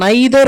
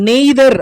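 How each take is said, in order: First: The first vowel sounds like 'eye'. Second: The first vowel sounds like 'ay'. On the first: The speaker calls it right. "ஒன்று நாம் நைதர் அப்படின்னு சொல்லலாம்" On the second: The speaker calls it wrong. "நெய்தர் அப்படின்றது வந்து wrong pronunciation"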